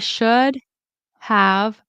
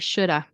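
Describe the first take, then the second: First: The word have is said fully with its v. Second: The word have is reduced to a weak a. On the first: "in careful speech" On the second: "It also can turn into I shoulda"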